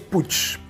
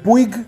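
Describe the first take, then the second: First: The name is said with the local pronunciation. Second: The name is said with an Argentine pronunciation. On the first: "pero aquí es Puig" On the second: "En Argentina lo pronunciarían Puig"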